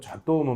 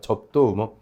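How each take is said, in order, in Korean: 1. 가운데 음절은 생략돼서 세 음절이에요. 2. 가운데 음절은 발음돼서 네 음절이에요. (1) "또 접도무 막 그러면 안 돼요" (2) "그래서 접도의무라 그래요"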